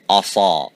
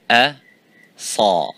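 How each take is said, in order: First: The opening hamza is heavy, with a full mouth. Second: The opening hamza is light, with an empty mouth. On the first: The speaker calls it wrong. "That's wrong. You don't say asa" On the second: The speaker calls it right. "slightly open sidewise your mouth"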